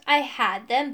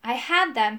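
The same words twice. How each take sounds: First: Parroting the excuse with exaggerated woe; mocking imitation. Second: Mildly regretful admission; sad. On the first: Rival throws the magician's excuse back, mockingly. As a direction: mimic it scornfully. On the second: Magician confesses to his rival, mildly sad. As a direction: admit it with a touch of sorrow. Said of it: "he said sadly". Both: A narrator's reading.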